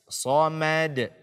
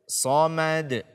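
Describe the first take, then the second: The two takes are said the same way.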